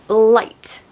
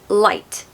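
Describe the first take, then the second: No difference in how they are said.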